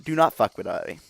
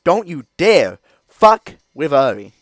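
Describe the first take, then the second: First: Said in the usual way. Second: Loud, high, slow warning shout. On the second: Real, not acted. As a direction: drag it out as a loud threat. Repeated warning, shouted then calm.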